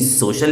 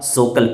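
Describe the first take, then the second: First: The middle consonant is an sh sound. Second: The middle consonant is a k sound. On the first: The speaker calls it right. "कहीं सोशल लिखा है" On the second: The speaker calls it wrong. "तो कहीं आप सोकल पढ़ रहे हैं"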